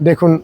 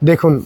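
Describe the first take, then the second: Both takes have the same delivery.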